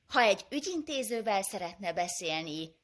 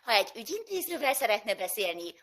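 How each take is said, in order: First: It is said in a flat, neutral tone. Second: It is said in a lively, energetic tone. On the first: "ez mondjuk egy üzenet rögzítő" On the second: "rakjak bele életet"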